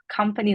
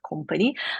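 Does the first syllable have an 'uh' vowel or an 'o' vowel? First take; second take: uh vowel; o vowel. First: The first vowel is a short 'uh' sound. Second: The first vowel is a rounded 'o' sound. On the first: The speaker calls it right. "company is pronounced with a" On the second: The speaker calls it wrong. "not company"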